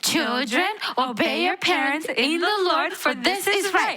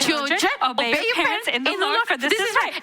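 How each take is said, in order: First: It is said a little faster. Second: It is said as fast as possible.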